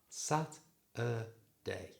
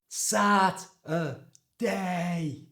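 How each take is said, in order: First: The word is said at normal volume. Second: The word is shouted loudly.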